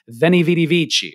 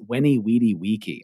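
First: It is pronounced the Italian-like church Latin way. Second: It is pronounced the classical Latin way.

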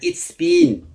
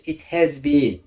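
First: The word has is contracted to an s sound. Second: The word has is spoken in full. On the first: "Yani it's been denir" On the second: "Ben açık okuyayım böylece"

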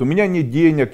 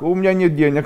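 First: It is said in a dejected, upset tone. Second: It is said in a cheerful, laughing tone. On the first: Having no money is a cause for distress. The speaker calls it wrong. "я расстроен" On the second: Having no money is nothing to worry about. The speaker calls it right. "Будьте солнцем по отношению к денег. Делайте так"

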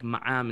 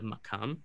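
First: The middle consonant is a glottal stop. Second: The middle consonant is a k sound.

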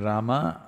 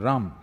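First: The final vowel is pronounced fully. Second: The final vowel is cut off. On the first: "If you say Rama" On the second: "they'll say Ram"

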